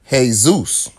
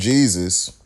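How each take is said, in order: First: The name begins with an H sound. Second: The name begins with a J sound.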